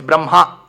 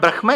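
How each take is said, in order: First: The h and m sounds come in swapped order. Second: The h and m sounds follow the spelled order. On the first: The speaker calls it right. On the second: The speaker calls it wrong. "It's not"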